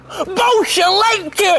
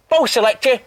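First: It is said in a happy way. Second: It is said in a neutral way.

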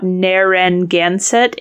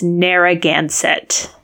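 First: An extra n sound is added inside the name. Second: The name has no extra n sound inside. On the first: The speaker calls it wrong. "She had added an N. It is not Narragansett" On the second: The speaker calls it right. "It is Narragansett"

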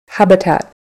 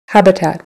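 No difference in how they are said.

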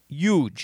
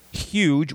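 First: The word starts without an H sound. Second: The word starts with a clear H sound. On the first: This is how people in Jersey say it. "We say huge. ... drop the H" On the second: This is how others outside Jersey say it. "We don't say huge"

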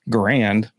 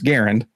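First: The name does not rhyme with errand. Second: The name rhymes with errand. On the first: The speaker calls it wrong. "for everybody who says Garand, no" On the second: The speaker calls it right. "it's Garand. It's the way he actually said he pronounces his name"

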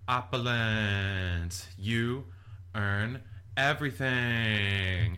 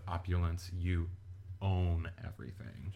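First: The word after 'you' sounds like 'earn'. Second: The word after 'you' sounds like 'own'. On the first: The speaker calls it wrong. "she mispronounces it" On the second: The speaker calls it right. "instead of"

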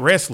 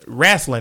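First: The word has a standard pronunciation. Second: The word has a Southern, rasslin-like pronunciation. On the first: It means the Olympic sport. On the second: It means pro wrestling like Ric Flair.

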